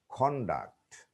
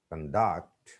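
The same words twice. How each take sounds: First: CONDUCT as the noun, CON-duct; "conduct" with a full o up front; stress on first syllable. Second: CONDUCT as the verb, kun-DUCT; weak first vowel in "conduct"; stress on second syllable. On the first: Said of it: "the stress is on the first syllable". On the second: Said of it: "second syllable". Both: Shown as a demonstration.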